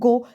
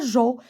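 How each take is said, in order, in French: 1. Elle commence par un son g dur. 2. Elle commence par un son j doux. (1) "C'est un go" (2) "C'est pas jo"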